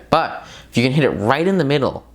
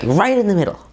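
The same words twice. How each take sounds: First: Said in the usual way. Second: "right in the middle" higher, leaned on hard; repeated with punchy stress on "right"; emphatic repeat. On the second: Shown as a demonstration. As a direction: hammer home "right in the middle". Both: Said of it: "like, right in the middle".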